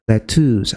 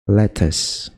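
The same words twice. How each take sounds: First: The second syllable has a long 'oo' vowel. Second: The second syllable has a short, weak vowel. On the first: The speaker calls it wrong. "jadi U terus panjang" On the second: The speaker calls it right. "ini yang benar adalah lettuce"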